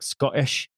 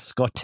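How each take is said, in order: First: The T is replaced by a glottal stop. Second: The T is clearly pronounced as a T. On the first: "we do these like glottal T's where it's like" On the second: "Instead of"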